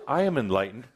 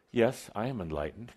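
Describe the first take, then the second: First: Said in the usual way. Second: Casually tossed off, softer; breezy, offhand claim; nonchalant. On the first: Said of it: "But you say it in that kind of voice". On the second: Shown as a demonstration. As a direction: say it like it's nothing special. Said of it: "say it in that kind of voice ... nonchalant".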